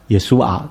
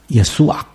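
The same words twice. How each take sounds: First: The word ends without a throaty guttural sound. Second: The word ends with a throaty guttural sound. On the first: "直接读成耶稣啊就可以了" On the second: "更正确的应该这样读……他后面有一点喉音的"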